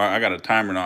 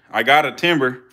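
First: Timer with a long i and no b, said TY-mer; timer, corrected. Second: Timber with a short i and a b, said TIM-ber; timber instead of timer. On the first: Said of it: "I said timer". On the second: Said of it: "he said timber". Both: Shown as a demonstration.

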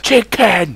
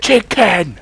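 First: High, loud outburst; sudden comic yell; shouted chicken gag. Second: High, loud yell; sudden squawked interruption; shouted chicken gag. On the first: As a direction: blurt it out high like a random interruption. Random shouted gag interruption. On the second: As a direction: burst in with a high comic shout. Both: Acted.

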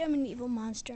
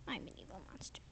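First: Said in the usual way. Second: Low, hushed whispered confession. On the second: Real, not acted. Big sister whispering to the scared toddler that she's a monster.

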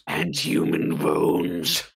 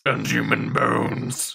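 First: Very deep, slow witch voice; scary witch voice. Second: Creepy slow voice. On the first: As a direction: growl it slow like an old crone. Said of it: "stop the scary voice now". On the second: Creepy witch voice line. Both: Acted.

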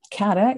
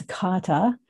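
First: "kata" said Canadian style, flat a like "cat-a"; Canadian pronunciation. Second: "kata" with open ah vowels, even stress, KAH-tah; Japanese pronunciation. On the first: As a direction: say "kata" with a Canadian English vowel, KAT-uh. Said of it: "that's my Canadian accent". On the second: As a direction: say "kata" the Japanese way, short crisp t. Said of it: "My friends who speak Japanese would tell me kata". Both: Shown as a demonstration.

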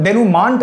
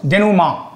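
First: डेनुमांट with a sounded "nt" at the end; mistaken pronunciation. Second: डेनुमा ending in "maa", no t sound; correct pronunciation. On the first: Teacher warns students off a misreading, डेनुमांट ending in "maant". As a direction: wrongly voice the final t, "maant", in डेनुमांट. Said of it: "नहीं पढ़ेंगे". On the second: Teacher models the term for students, डेनुमा with open final "maa". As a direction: leave the t silent in डेनुमा. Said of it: "पहले इसका pronunciation हम देखते हैं". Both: Shown as a demonstration.

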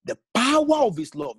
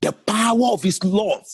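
First: POWER lifted high, the phrase rising at the end; rising emphasis. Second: POWER punched louder, the phrase falling firmly to love; emphatic statement. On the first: Preacher announcing his point to the church, rising stress on power. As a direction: lift the word power and let it climb. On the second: Preacher declaring his single point tonight, loud falling stress on power. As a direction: land the word power hard and settle down. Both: Acted.

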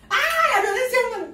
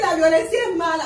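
First: Much higher, louder cry of la violencia es mala; real excited yell; higher shout. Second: Said in the usual way. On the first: Real, not acted. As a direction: yell it high like a scandalized fan. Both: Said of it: "la estoy enseñando a gritar como yo".

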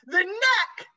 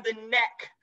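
First: "neck" pitched way up and louder; shrieked stress on "neck"; horrified emphasis. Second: Said in the usual way. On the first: Real, not acted. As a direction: repeat it in disbelief, punching "neck" high.

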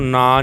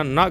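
First: ਨਾ with a long open aa; naa, the mistaken long form of ਨਾ; long-vowel mistake. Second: ਨਾ cut short to a brief na; bare n plus short a for ਨਾ; short-vowel pronunciation. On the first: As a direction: stretch the vowel of ਨਾ as the wrong reading. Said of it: "ਇਹਨੂੰ ਨਾ ਨਹੀਂ ਕਹਿਣਾ". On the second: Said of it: "ਇਹ ਵੀ ਨੰਨਾ ਮੁਕਤਾ". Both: Shown as a demonstration.

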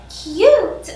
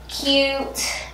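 First: CUTE pitched high and stretched out; emphatic gushing. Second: Said in the usual way. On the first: Real, not acted. Vlogger showing off her new mules, emphatic gushing. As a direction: gush on a long, high "cute". Corrects herself with gushing repeat.

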